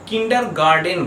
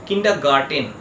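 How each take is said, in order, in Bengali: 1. শেষের অংশটি 'den' ধ্বনি দিয়ে শেষ হয়। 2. শেষের অংশটি 'ten' ধ্বনি দিয়ে শেষ হয়। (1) "এটাকে সাধারণত লোকে উচ্চারণ করে কিন্ডার গার্ডেন বলে" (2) "কিন্তু ঠিক উচ্চারণটা হবে কিন্ডার গার্টেন"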